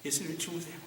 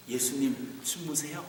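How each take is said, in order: First: Soft title repeated. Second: Soft title read. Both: Shown as a demonstration. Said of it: "말씀의 제목을 이렇게 했어요".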